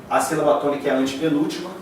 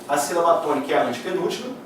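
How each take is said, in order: Both takes have the same delivery.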